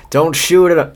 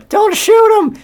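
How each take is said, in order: First: Said in the usual way. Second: A very high, squeaky warden voice; the warden's voice. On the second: Acted. Reading the warden's order to the guards in a very high squeaky voice. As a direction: redo the line as a shrill cartoon warden. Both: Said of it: "said the warden".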